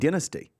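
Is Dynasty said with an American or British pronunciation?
British. It is said with a British pronunciation. This is how British people say it. The speaker calls it right. "That's the way we pronounce it"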